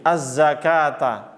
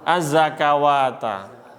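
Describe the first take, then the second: First: The word is said without a 'wa' syllable. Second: The word is said with an added 'wa' syllable. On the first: The speaker calls it right. "Benar di sini" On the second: The speaker calls it wrong.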